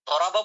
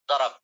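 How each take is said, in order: First: The word ends with a final vowel sound. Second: The word ends on a consonant, vowel dropped. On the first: This is how it is read in class. "দরাবা বলি না?" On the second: This is how native speakers say it. "আরবরা যারা আছে সাধারণত সাকিন বলে সব"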